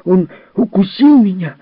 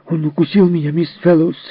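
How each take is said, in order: First: Much higher and louder, a shrieking complaint; furious child shout. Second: Put-on high, angry, breathless cry of a bitten boy; Jerry tells on Timmy, high and upset; angry child complaint. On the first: Acted. A hurt boy shouts at Miss Fellowes, high furious yell. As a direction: scream it out like a bitten little boy. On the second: A hurt boy complains to Miss Fellowes, high and angry. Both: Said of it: "задыхаясь от злости, крикнул Джерри".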